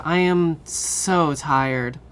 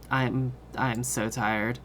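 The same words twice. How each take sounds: First: Drawn-out I am so tired, am stressed, louder. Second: Quiet, slow, worn-out voice; tired. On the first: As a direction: stretch out I am so tired, leaning on am. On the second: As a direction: say it drained and sleepy. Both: Real, not acted. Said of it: "Have you not heard me yawning".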